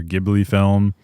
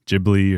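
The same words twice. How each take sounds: First: Ghibli with a hard G, as "GIB-lee". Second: Ghibli with a soft G, as "JIB-lee". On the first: Film fan offers both readings of the studio name, hard-G Ghibli. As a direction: start Ghibli with the G of "give". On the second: Film fan offers both readings of the studio name, soft-G Ghibli. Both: Shown as a demonstration. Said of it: "End that debate right now".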